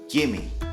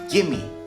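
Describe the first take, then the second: First: The two words are joined into one reduced word. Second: The same.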